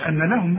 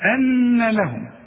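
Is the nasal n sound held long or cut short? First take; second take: short; long. First: The nasal n is cut short, not held. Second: The nasal n is held for two beats. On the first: The speaker calls it wrong. "ما تقولش أن لهم بقى" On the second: The speaker calls it right. "لا، أن لهم"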